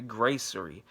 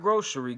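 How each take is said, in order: First: "gracery" with an AY sound, pitch falling; "gracery" as the right word. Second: "grocery" with an O sound, pitched up; "grocery" as the wrong word. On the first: Giving viewers the odd word, "gracery" with a clear AY. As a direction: say "gracery" as GRAY-suh-ree. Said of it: "Not grocery, gracery". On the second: Correcting a search mix-up, "grocery" stressed with an O. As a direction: stress "grocery", said with a long O, higher. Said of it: "Not grocery". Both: Shown as a demonstration.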